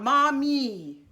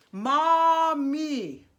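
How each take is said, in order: First: "mommy" quoted as the wrong form; name the error: "mommy"; contrasting mommy. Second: "Mommy" sung with a bright closed "ee" at the end; the mistake: a pinched "ee" in "Mommy"; wrong vowel mommy. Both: Shown as a demonstration. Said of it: "Not mommy".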